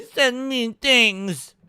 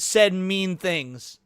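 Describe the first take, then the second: First: Slow, put-on pouty complaint; mock whining. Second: Said in the usual way. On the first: Mocking the regulator's demand for user information, slow mock whining. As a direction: whine it like a wounded tattletale.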